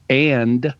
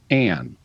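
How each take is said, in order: First: The final d is pronounced. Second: The final d is dropped.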